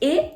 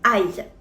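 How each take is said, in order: First: It is one steady vowel like "eh". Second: It glides from "ah" to "ee". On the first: This is how French reads the letters. "le groupe de lettres A I en français va se prononcer E" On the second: This is how Chinese reads the letters. "alors qu'en chinois, il va se prononcer Ai"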